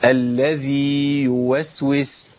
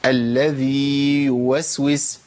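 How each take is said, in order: Both takes have the same delivery.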